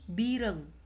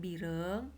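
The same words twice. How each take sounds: First: It is said with a heavy initial consonant. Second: It is said with a light initial consonant. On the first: "Suara breu" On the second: "suara demang"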